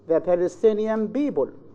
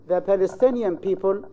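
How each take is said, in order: First: People starts with a b sound. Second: People starts with a clear p sound. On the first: The speaker calls it wrong. "they say the Palestinian people. So the mistake is in the pronunciation of the consonant p" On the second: The speaker calls it right. "Instead of saying"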